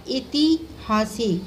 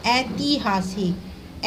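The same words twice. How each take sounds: First: ऐतिहासिक starting with i, slowly; wrong first vowel. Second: ऐतिहासिक slowly with a clear opening ai; correct ai. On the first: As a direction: say ऐतिहासिक as iti-haasik. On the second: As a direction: draw out ऐतिहासिक as AI-ti-haasik. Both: Shown as a demonstration.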